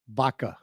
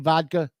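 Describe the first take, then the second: First: The D sound in the middle is dropped. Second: The D sound in the middle is pronounced.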